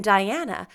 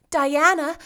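First: Said in the usual way. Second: Raised, loud call of a name; Anne calling out. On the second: A narrator's reading. Anne alarmed, calling out to Diana. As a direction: call Diana urgently, in character. Anne calls her friend.

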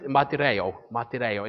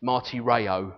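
First: "martyreo" with tapped, Greek-style r; Greek accent. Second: "martyreo" with untapped English r sounds; English accent. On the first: Preacher showing congregation the Greek word, Greek accent. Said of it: "accent that you need to say it with". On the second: Preacher showing what English speakers get, English accent. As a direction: say "martyreo" as an English reader would. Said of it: "say it in an English accent". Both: Shown as a demonstration.

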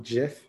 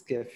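First: Gif pronounced "jif"; soft-g gif. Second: Gif with g as in "gift"; hard-g gif. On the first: Quoting the inventor's version, gif as "jif". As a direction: say gif with a j sound. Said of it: "who invented the format". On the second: Agreeing on the usual version, gif with hard g. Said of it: "actually calls it gif?". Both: Shown as a demonstration.

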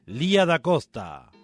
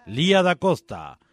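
No difference in how they are said.

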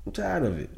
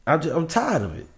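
First: Same words dropped much softer; softer repeat. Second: Said in the usual way. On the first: Real, not acted. Host fed up with guest's vague advice, repeats it much softer. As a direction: trail off as if to yourself.

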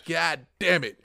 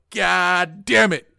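First: Said in the usual way. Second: Louder, slow, drawn-out frustrated yell; retold yell. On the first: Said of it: "I said". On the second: Fan retelling the tying goal, yelled in frustration. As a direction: draw out the curse as you re-enact yelling it. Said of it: "And I yelled out".

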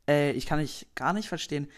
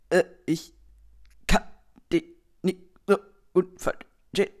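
First: Said in the usual way. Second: Chopped-up loud syllables with dropouts between them; superschlechtes Netz. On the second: Acted. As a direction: imitate a breaking-up phone connection, word by word. (abgehackt wie bei Funkloch) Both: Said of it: "Der mit super schlechtem Netz".

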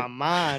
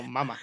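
First: Mamá with the second syllable stressed and held; stress on final A. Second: Mamá said as MA-ma, first syllable stressed. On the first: Friend correcting his mates, Mamá stressed on the end. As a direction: lean on the last A of Mamá. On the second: Friend contrasting the two words, mamá stressed up front. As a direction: hit the first syllable of mamá, drop the second. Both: Shown as a demonstration. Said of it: "no, mamá".

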